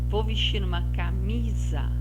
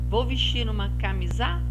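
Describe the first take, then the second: Both takes have the same delivery.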